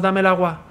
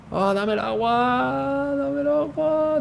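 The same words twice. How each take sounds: First: Said in the usual way. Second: High, slow begging whine; whiny pleading. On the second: Pretend. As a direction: beg for it pitifully, drawn out. Begging teammate for water.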